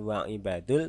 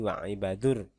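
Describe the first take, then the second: First: The article is said with a plain L sound. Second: The article merges into an R sound. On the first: The speaker calls it wrong. "bukan wa ibadul" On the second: The speaker calls it right. "tapi wa ibadur"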